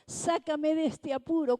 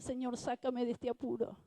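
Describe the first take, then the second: First: Raised, pitched-up cry of "sácame de este apuro"; urgent plea. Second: Said in the usual way. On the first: Retold or imitated. Kneeling man crying to God for rescue, raised and urgent. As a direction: beg to be pulled out, voice up high.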